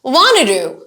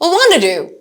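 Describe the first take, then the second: First: The words are weakened and run together. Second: The words are weakened and run together.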